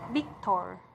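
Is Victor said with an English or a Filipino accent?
Filipino. It is said with a Filipino accent. "we say it as Victor"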